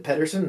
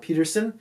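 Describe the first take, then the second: First: "Pettersson" said as PET-ters-son, Swedish double s; "Pettersson" with the Swedish spelling sounded out; correct pronunciation. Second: "Peterson" said the plain English way, PEE-ter-son; "Peterson" as the common English name; wrong pronunciation. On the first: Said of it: "That's right, I said Pettersson". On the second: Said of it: "not Peterson". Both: Shown as a demonstration.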